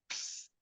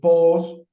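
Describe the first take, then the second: First: No vowel is heard between p and s. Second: A vowel is heard between p and s.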